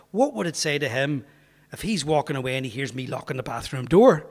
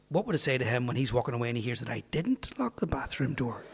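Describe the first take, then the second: First: Said in the usual way. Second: Quick run-through with "didn't" picked out; stress on DIDN'T. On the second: Retold or imitated. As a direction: punch up the pitch on "didn't". Same question reversed for the punchline.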